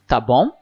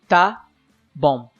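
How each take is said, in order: First: It is said as a question, rising. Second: It is said as a statement, falling. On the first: Checking that the other person understood. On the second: Agreeing to do what was asked.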